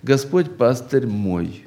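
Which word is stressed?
мой. The word мой carries the main stress. It answers whose shepherd the Lord is. "третье подразделение – «Господь, пастырь для кого?» – «Для меня»"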